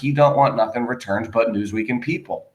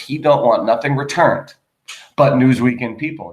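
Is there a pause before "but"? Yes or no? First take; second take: no; yes. First: There is no pause before "but". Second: There is a pause before "but".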